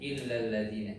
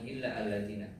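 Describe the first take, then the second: First: The two words run together without a break. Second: The second word starts with a separate vowel. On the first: The speaker calls it right. "jadi illalladzina" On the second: The speaker calls it wrong. "Jadi bukan illa alladzina"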